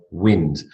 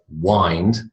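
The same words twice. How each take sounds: First: "wind" rhyming with pinned; short i in "wind". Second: "wind" rhyming with find; long i in "wind". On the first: Teacher models the second reading for class, short i in "wind". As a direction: say "wind" with the vowel of win. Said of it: "the noun and the verb". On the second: Teacher models the verb for class, long i in "wind". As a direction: say "wind" as wynd. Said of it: "the verb". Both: Shown as a demonstration.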